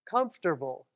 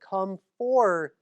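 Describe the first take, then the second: First: The t sound comes before the r sound. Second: The r sound comes before the t sound. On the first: This is how people usually say it now. "How do people say this word?" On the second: This is how it was originally pronounced. "It was comfortable"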